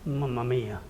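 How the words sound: It is said in a sad tone. Something sad has happened. "it could also be used in a sad situation"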